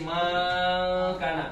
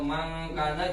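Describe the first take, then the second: First: One vowel is stretched out long. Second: The vowels are all kept short. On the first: The speaker calls it wrong. "penambahan huruf" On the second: The speaker calls it right. "seharusnya tidak ada alifnya"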